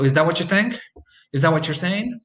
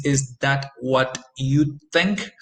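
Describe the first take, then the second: First: "what you" blended into "whatchu"; connected speech demo. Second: "what you" said slowly as two separate words, "what" and "you"; slow careful demo. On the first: Teacher modelling the blend for students, natural. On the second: Teacher showing careful speech to students, slow. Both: Shown as a demonstration. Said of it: "So what you becomes what you".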